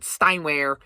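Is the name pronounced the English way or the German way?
English. The name is said with an English pronunciation. The speaker calls it wrong. "It's not Steinwehr"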